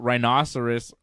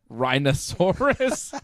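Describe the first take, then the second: First: The word is said with its usual ending. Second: The word ends with a sound like 'dinosaur'. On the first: "the animal rhinoceros" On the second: "A J pronounced the animal rhinoceros rhinoceros"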